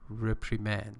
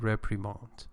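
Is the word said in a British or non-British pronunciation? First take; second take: non-British; British. First: The word is said in a non-British pronunciation. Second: The word is said in a British pronunciation.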